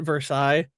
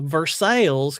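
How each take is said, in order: First: It has the standard, non-local pronunciation. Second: It has the local Kentucky pronunciation. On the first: This is how the name is properly pronounced elsewhere. The speaker calls it right. "if I called it Versailles, I would be the only person in Kentucky calling it that" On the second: This is how people in Kentucky say the town's name. The speaker calls it wrong. "what our Kentucky folk call Versailles"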